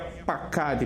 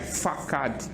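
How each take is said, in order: First: The word begins with a P sound. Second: The word begins with an F sound. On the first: The letter carries the dot. "Para que ela receba o som de P, é necessário ela receber o Dageschlen" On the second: The letter lacks the dot. "Sem o Dageschlen, esse nome não seria Pakad, mas seria Fakad"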